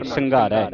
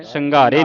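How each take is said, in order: First: ਸੰਘਾਰੈ with an open "ai" ending; correct dulavan ending. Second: ਸੰਘਾਰੇ with a closed -e ending; wrong vowel ending. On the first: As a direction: open the last vowel of ਸੰਘਾਰੈ to "ai". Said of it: "ਦਲਾਵਾਂ ਲੱਗਣਾ". (ਸੰਘਾਰੈ ਦੇ ਅੰਤ ਵਿੱਚ ਦੁਲਾਵਾਂ ਦੀ ਖੁੱਲ੍ਹੀ ਆਵਾਜ਼) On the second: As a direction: end ਸੰਘਾਰੇ on "ay", not open "ai". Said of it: "ਸੰਘਾਰੇ ਨਹੀਂ ਪੜਨਾ". (ਸੰਘਾਰੇ ਦੇ ਅੰਤ ਵਿੱਚ ਇੱਕ ਲਾਂ ਦੀ ਆਵਾਜ਼) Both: Shown as a demonstration.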